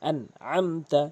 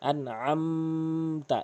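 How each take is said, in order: First: The nasal sound is short and clear. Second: The nasal sound is held and nasalized. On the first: The speaker calls it right. "এভাবে বলতে হবে।" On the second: The speaker calls it wrong. "এভাবে বলতে পারবেন না।"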